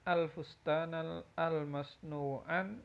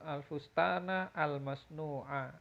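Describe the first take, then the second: First: The last word ends with an added n sound. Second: The last word ends on a plain vowel. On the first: The speaker calls it wrong. "kok ada tanwin" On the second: The speaker calls it right. "Harusnya tanpa tanwin"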